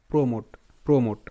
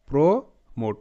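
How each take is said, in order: First: Said in the usual way. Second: "প্রো মোট" with a pause between প্রো and মোট; sounded out in parts. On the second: Shown as a demonstration. Teacher linking to a word seen earlier, "প্রো - মোট" sounded out. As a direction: say প্রো, wait, then মোট. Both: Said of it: "P R O প্রো উচ্চারিত হয়েছিল".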